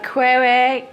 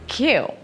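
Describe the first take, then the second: First: The word is said like 'kweer'. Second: The word is said like 'kyoo'. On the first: The speaker calls it wrong. "it's not quere" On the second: The speaker calls it right. "The word is Q"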